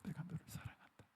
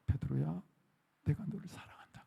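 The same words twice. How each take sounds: First: Very soft whisper, almost no voice. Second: Soft, breathy whispered love; tender whisper. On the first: Jesus whispering love to Peter, barely audible whisper. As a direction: breathe the words like a secret. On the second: Jesus whispering love to Peter, soft tender whisper. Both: Retold or imitated. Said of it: "그러는 거예요".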